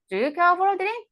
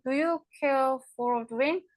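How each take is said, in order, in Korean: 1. 'do you'는 약하게 줄어서 거의 들리지 않습니다. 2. 모든 단어, 'do you'를 포함해서, 또렷하게 발음됩니다. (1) "이 부분은 거의 ... 이렇게 들린다" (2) "우리는"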